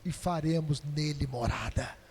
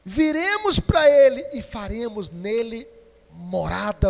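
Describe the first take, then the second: First: Low, hushed promise; soft voice of Jesus. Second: Loud, ringing preacher's declaration; proclaiming loudly. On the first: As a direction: breathe it out gently as Jesus. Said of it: "E Jesus fala assim". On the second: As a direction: shout the promise to the church. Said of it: "Quem me ama". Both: Acted.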